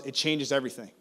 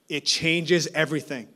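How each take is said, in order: First: Said in the usual way. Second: "It changes everything" slowed, each word weighted; slow down and land "changes"; slow emphasis. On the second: Retold or imitated. Mentor repeating his key point to the pastor, slow and weighty.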